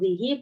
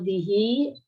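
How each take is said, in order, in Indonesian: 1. Vokal terakhir setelah h itu pendek. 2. Vokal terakhir setelah h dipanjangkan. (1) "Kalau zihi berarti namanya ikhtilas" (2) "setelah hak ini ada yaknya itu namanya isba"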